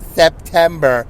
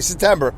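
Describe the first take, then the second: First: The P sound is clearly pronounced in the word. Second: The P sound is dropped from the word. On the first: The speaker calls it right. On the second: The speaker calls it wrong.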